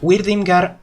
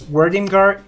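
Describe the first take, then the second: First: The name is said with a Spanish pronunciation. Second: The name is said with an English pronunciation. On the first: "In Spanish it's pronounced" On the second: "but in English I think it's"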